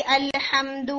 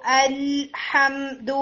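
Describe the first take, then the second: First: الحمد with a quick bouncing l; hurried tip-only lam. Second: الحمد very slow, l drawn out; lam taking its time. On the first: Teacher imitating the error for students, الحمد with a rushed lam. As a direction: release the l in الحمد early, off the tip. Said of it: "صرف ٹپ کے اوپر جلدی کرتی ہوں". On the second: Teacher proving to students it takes time, الحمد with a long lam. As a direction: hold the lam in الحمد on full contact. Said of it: "اس نے خود ٹائم لیا". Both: Shown as a demonstration.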